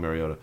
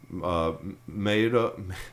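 First: The R sound is clearly pronounced. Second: The R sound is nearly silent. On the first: "I'm just going to call him Mariota" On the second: "Like the R is kind of silent-ish"

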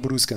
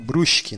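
First: The S is said plainly, not drawn out. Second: The S is drawn out, local Brusque style.

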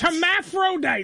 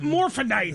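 First: The word begins with the syllable 'her'. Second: The word begins directly with 'mor'. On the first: The speaker calls it right. "it's hermaphrodite" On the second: The speaker calls it wrong. "not morphodite"

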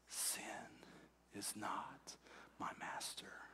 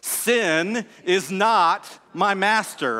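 First: It is whispered very softly. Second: It is said strongly and loudly.

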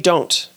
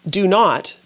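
First: The word 'not' is contracted. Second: The word 'not' is said in full. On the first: This is the spoken form. "but we say" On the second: This is the written form. "We may write"

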